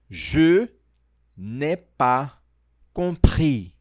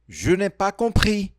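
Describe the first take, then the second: First: The phrase is said at a slower pace. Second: The phrase is said at a faster pace.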